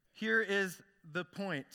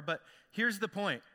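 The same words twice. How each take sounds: First: Each word slowed and set apart; slow, emphatic point. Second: Said in the usual way. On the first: Shown as a demonstration. Pastor drives home the story's lesson to the congregation, slow and emphatic. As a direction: land it slowly, word by word.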